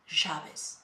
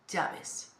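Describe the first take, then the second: First: The first sound is like sh. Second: The first sound is like a y. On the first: This is how it is said in Argentina or Uruguay. "they pronounce it like sha ... It's more sound there" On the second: This is the general pronunciation, as in Mexico or Spain. "So in Mexico or in Spain, for example, we say in general llaves"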